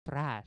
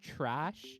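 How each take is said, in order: First: It is said in an Indian-accented way. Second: It is said in a standard American accent.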